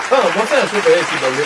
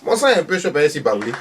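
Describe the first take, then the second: First: Même phrase, plus forte et appuyée; elle s'échauffe en le répétant; vieille maman qui s'emporte. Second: Voix aiguë de vieille dame, posée; le dit une première fois, sans forcer; vieille maman. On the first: Redit plus fort. (Thérèse répète plus fort, voix aiguë emportée) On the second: Dit puis redit plus fort. (Thérèse explique son sang chaud, voix aiguë) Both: Acted.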